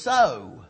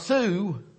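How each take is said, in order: First: The vowel rhymes with 'go'. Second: The vowel rhymes with 'shoe'. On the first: The speaker calls it right. "it's so" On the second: The speaker calls it wrong. "is not Sue"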